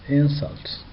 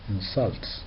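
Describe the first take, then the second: First: The stress is on the first syllable. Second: The stress is on the second syllable. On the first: It is used as a noun. "as a noun" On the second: It is used as a verb. "as a verb"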